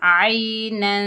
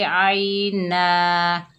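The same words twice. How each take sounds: First: आइनन drawn out slowly, the final nun hummed through the nose; nasal ghunna ending. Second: आइना ending on a plain long a with no nun; stop on long a. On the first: Teacher showing ikhfa when joining, slow and nasal. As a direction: stretch आइनन and hum the nun. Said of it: "कैसे करेंगे". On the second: Teacher showing the reading when stopping, plain long a. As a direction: close आइना on an open a. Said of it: "अगर वक्फ करेंगे तो पढ़ेंगे". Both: Shown as a demonstration.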